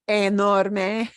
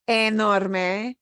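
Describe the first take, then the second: No difference in how they are said.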